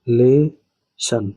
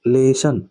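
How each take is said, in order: First: लेशन very slowly, broken into ले and शन; split syllables. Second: लेशन said as one connected chunk; joined syllables. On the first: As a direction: pull लेशन apart with a clear gap after ले. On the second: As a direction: model लेशन whole, ले running straight into शन. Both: Shown as a demonstration. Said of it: "ये तीसरा हुआ और ये चौथा हुआ".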